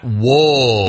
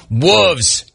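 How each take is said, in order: First: "wolves" said as wools, with a full L; mistaken pronunciation. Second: "wolves" said as woovs, pitched up; corrected pronunciation. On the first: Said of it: "not wolves". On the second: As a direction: say "wolves" with a short oo, dropping the L. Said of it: "It's pronounced wolves, not wolves". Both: Shown as a demonstration.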